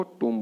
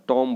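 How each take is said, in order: First: टूम with a long "oo": toom; correct pronunciation. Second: टॉम with an aw vowel: tom; wrong pronunciation. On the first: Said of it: "क्या बोलना है आपको". (टूम में लंबा ऊ) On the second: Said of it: "जो गलत तरीका है". (टॉम में ऑ की आवाज़) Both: Shown as a demonstration.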